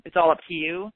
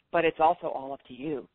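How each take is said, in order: First: "all" lifted with a rising end; "it's all up to you" with a rise on "all"; stress on all. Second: "also" hit hard with a falling end; "but it's also all up to you" with a drop on "also"; stress on also. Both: Shown as a demonstration.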